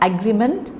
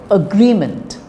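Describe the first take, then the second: First: The stress falls on the first syllable. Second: The stress falls on the second syllable. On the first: The speaker calls it wrong. "It's not agreement" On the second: The speaker calls it right. "but it is agreement"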